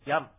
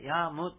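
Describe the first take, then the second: First: The word ends by only closing the lips. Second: The word ends with a clear, full 'mu' syllable. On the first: The speaker calls it right. "口を閉じるだけの発音なので" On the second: The speaker calls it wrong. "ヤームとこう、はっきり言うんでなく"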